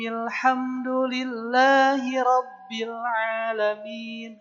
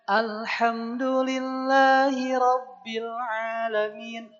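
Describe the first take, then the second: First: It joins the previous word without the 'a'. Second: It starts on its own with an audible 'a'. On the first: The verse is read joined to the previous one. "kalau disambung dari Bismillah, A-nya tidak dibaca" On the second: The verse is read separately from the previous one. "kalau bacanya dipisah"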